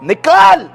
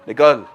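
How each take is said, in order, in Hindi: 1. यह शब्द ज़ोर से और दमदार तरीके से बोला गया है। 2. यह शब्द धीरे और कमज़ोर आवाज़ में बोला गया है। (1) "उन्होंने जोर से बोला" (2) "यार ऐसे कौन बोलता है।"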